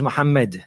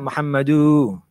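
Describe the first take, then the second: First: The vowels are kept at normal length. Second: A vowel is stretched with an added lengthening. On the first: The speaker calls it right. "There's no med there" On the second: The speaker calls it wrong. "if you put a med there and it doesn't belong there, then you're not saying it right"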